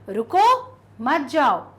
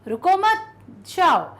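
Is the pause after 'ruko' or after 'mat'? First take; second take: after ruko; after mat. First: The pause comes after 'ruko'. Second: The pause comes after 'mat'.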